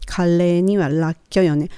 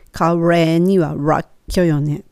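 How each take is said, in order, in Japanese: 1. re と ra は L の音を使います。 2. re と ra は R の音を使います。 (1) "レとラの部分L でいきましょう" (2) "次にR の発音でいきましょう"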